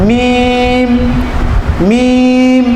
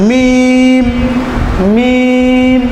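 The two takes are said the same way.

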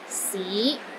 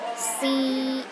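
First: The pitch rises from low to mid. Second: The pitch is high and steady. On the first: "It starts low then rises to the middle of your range" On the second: "The first tone is high and steady"

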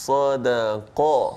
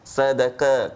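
First: The middle consonant is a deep heavy 'q'. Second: The middle consonant is a light front 'k'. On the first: The speaker calls it right. "sebut dengan betul qaf. Qa, dua harakat kat situ. Ha, qa dan tebal" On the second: The speaker calls it wrong. "ka huruf kaf. Eh, qaf tukar kaf"

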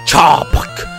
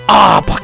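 First: The name begins with a 'ch' sound. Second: The name begins with a plain vowel sound. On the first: "he says it with a C sound, so it's like Chabok" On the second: "instead of saying Arbok"

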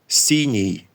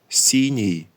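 No difference in how they are said.

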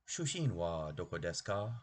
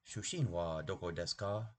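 No difference in how they are said.

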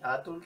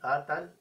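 First: A u vowel separates the t and l. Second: An a vowel separates the t and l. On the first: "ni atul" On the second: "ni atal"

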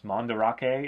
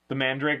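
First: It is said with an extra vowel, three syllables. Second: It is said with two syllables, no extra vowel.

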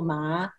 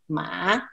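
First: The syllable is said with Mandarin tone two. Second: The syllable is said with Mandarin tone three.

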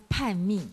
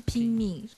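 First: The first syllable is said as pan. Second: The first syllable is said as pin. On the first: This is the standard correct reading. The speaker calls it right. "正确来讲应该叛命" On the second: This is the common everyday reading. The speaker calls it wrong. "一般的说法就是拼命"

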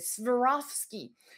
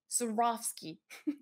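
First: The name is said with a Russian-like pronunciation. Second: The name is said with an English pronunciation. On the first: "ロシアっぽい感じで読もうとするとですね" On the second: "英語でスワロフスキー"

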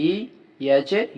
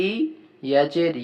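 Both takes have the same delivery.

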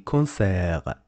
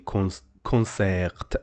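First: The final t sound is silent. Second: The final t sound is pronounced. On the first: The speaker calls it right. "and the third one is te, so it is not pronounced" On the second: The speaker calls it wrong. "We don't say concert"

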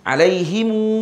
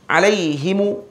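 First: The final vowel is held long. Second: The final vowel is cut short. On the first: "Alaihimu ada ada waw" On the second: "Alaihimu tak ada waw"

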